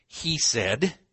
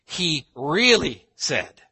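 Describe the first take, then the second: First: Said in the usual way. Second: REALLY punched high and loud; slow, forceful "He really said"; emphatic stress. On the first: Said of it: "We would say". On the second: Shown as a demonstration. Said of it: "to emphasize".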